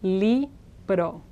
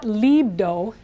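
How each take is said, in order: First: The r is a quick single tap. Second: The r sounds like an English d. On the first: The speaker calls it right. "It's just libro" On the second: The speaker calls it wrong. "that's the English D of dog"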